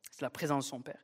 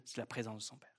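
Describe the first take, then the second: First: Said in the usual way. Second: Softer, dropped almost to a hush; a near whisper of the key truth. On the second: Real, not acted. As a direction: let "présence de son Père" sink in quietly.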